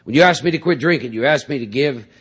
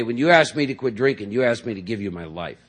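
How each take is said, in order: First: Fast, louder insistent repeat; emphatic repeat. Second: Said in the usual way. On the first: Retold or imitated. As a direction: push the repeat harder and faster. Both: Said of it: "I was telling a new guy".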